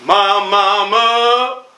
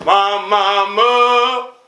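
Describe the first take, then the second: No difference in how they are said.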